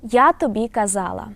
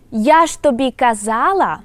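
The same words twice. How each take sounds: First: Said in the usual way. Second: Я ж тобі казала said louder with ж pressed; emphatic particle ж. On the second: Shown as a demonstration. Teacher contrasting the sentence with ж, louder and emphatic. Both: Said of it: "compare how we, would pronounce the sentence without".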